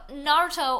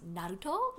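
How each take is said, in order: First: The R is said as a plain English R. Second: The R is said with a light trill.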